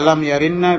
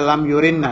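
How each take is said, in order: First: The vowel after the y is 'a'. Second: The vowel after the y is 'u'. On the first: "Bisa dibaca lam yarinna" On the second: "bisa dibaca lam yurinna"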